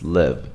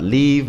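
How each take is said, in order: First: "live" with a lax ih vowel; "live" said as LIHV; short I. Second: "leave" with a tense ee vowel; "leave" said as LEEV; long E. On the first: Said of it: "it's live". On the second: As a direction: tighten the vowel of "leave" to a clear ee. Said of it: "It's not leave". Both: Shown as a demonstration.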